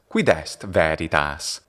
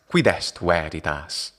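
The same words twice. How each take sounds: First: It uses the ecclesiastical Latin pronunciation. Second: It uses the restored classical Latin pronunciation.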